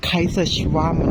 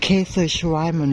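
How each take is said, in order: First: ไคเซอร์ชวามัน opened with a "kai" sound, rhyming with "eye"; alternative German pronunciation. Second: เคเซอร์ชวามัน opened with a "kay" sound; tentative German pronunciation. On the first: Vlogger offering another pronunciation of the dessert, "kai" first in ไคเซอร์ชวามัน. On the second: Vlogger attempting a hard Austrian dessert name, "kay" first in เคเซอร์ชวามัน. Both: Shown as a demonstration. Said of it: "ะออกเสียงผิดพลาดนิดนึงนะคะ".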